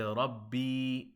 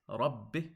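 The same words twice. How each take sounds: First: The final vowel is drawn out long. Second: The final vowel is kept short. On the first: The speaker calls it wrong. "if you add a ya sukun, as if you adding your ya sukun, you say rabbi" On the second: The speaker calls it right. "It's rabbi. Notice it's just ba kasra"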